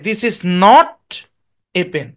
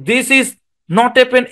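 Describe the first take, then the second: First: A pause comes between not and a pen. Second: No pause comes between not and a pen. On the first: The speaker calls it right. "This is not, তারপরে গিয়ে বলেন a pen" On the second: The speaker calls it wrong. "এভাবে না"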